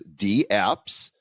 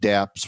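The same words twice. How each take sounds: First: The D is said as a separate letter. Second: The D is blended into one syllable. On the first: The speaker calls it right. "the correct pronunciation is dApps, and it's kind of like email" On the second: The speaker calls it wrong. "when we call it dApps, we're kind of disrespecting the the name"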